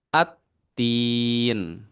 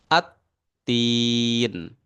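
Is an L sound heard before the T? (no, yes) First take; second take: no; no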